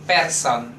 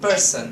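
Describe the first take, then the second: First: The first vowel is a full, strong e. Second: The first vowel is a weak, reduced e. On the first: The speaker calls it wrong. "E keras itu person" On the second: The speaker calls it right. "Kalau ini E lemah"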